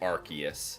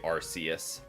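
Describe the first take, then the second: First: The c is said as a hard k sound. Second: The c is said as a soft s sound. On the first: This is the pronunciation the speaker rejects. The speaker calls it wrong. "I don't say Arceus" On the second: This is the pronunciation the speaker uses. The speaker calls it right. "I say Arceus"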